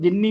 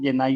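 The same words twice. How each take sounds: First: जिन्नी with a final long "ee"; plural pronunciation of genius. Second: जेनाई ending in an "eye" sound; alternative plural pronunciation. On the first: Teacher gives one accepted plural of genius, pronounced जिन्नी. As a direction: say जिन्नी, ending in "nee". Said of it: "जिन्नी भी बोलते हैं इसको". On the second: Teacher gives some people's version, pronounced जेनाई. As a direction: say जेनाई, rhyming its end with "eye". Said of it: "कुछ लोग जेनाई भी बोल देते हैं". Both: Shown as a demonstration.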